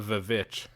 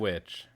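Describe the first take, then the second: First: The word starts with a V sound. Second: The word starts with a plain W sound.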